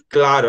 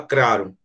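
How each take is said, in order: First: The c is followed by an L sound. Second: The c is followed by an R sound. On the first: "ela não fala claro" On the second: "ela fala claro"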